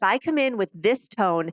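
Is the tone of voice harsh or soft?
harsh. The voice sounds harsh and forceful. The speaker is dominating the other person. The speaker calls it wrong. "and my body's powering over you"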